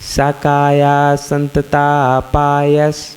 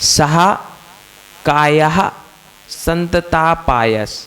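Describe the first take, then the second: First: The first syllable flows straight on, without h. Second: A breathy h sound follows the first syllable. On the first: The speaker calls it right. "अब कितने प्यार से पढ़ते" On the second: The speaker calls it wrong. "यदि सा के आगे दो बिंदी लगी होती तो उच्चारण में मधुरता नहीं आती"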